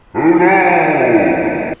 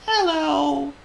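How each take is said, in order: First: Booming giant mouse, very loud; Squeak. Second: Gloomy, very high tiny mouse; Squeak. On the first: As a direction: boom out a huge greeting. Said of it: "he boomed". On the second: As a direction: squeak a glum little greeting. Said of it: "said Squeak gloomily". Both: A narrator's reading.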